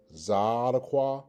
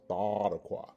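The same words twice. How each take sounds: First: Zadokwa with a Z; first pronunciation. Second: Thadakwa with a TH; alternative pronunciation. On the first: Teacher contrasts both forms for students, Zadokwa shown with a Z. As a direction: stress the opening of Zadokwa, buzzed Z. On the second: Teacher contrasts both forms for students, Thadakwa shown with TH. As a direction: open Thadakwa on TH in place of Z. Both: Shown as a demonstration. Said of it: "the alternative pronunciation is".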